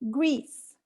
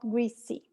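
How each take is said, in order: First: The word is said with one syllable. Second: The word is said with two syllables. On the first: The speaker calls it right. "one syllable in English" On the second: The speaker calls it wrong. "It's not"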